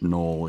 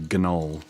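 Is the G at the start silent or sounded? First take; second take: silent; sounded. First: The G at the start is silent. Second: The G at the start is pronounced. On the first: The speaker calls it right. "the G is silent in Noel" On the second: The speaker calls it wrong. "You don't say Gnoll"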